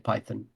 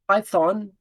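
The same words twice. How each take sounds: First: It is said with a British pronunciation. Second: It is said with an American pronunciation. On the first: "Most British people and colon colonies of like like former colonies of Britain, like South Africa, would say Python" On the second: "Python is very Americanized"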